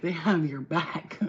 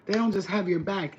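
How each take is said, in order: First: Slow, with weight leaning on "have"; stress on have. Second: Said in the usual way. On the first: Real, not acted. To viewers on the universe, leaning hard on "have". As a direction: draw out "have" so it lands as the point.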